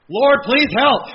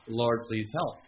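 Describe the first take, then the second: First: Loud, high desperate plea; crying out to God. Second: Said in the usual way. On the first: Retold or imitated. Pastor on a busy week, desperate loud plea. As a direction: cry out to the Lord for help. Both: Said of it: "I'm crying out to the Lord more".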